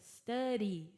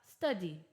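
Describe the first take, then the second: First: The middle D sounds like a quick flapped R. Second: The middle consonant is a clear D sound. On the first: "O American accent vai trocar aquele D por um R" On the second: "Mas se você quiser, você pode falar study. That's totally fine"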